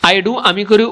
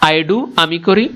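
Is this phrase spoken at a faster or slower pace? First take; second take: faster; slower. First: The phrase is spoken at a faster pace. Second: The phrase is spoken at a slower pace.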